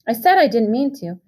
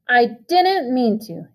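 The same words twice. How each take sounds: First: Said in the usual way. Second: Higher, slow, sneering echo; mocking shout. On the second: A narrator's reading. Brother mocking Pony's excuse back at him, angry shout. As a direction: throw his own excuse back at him. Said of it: "Derry shouted".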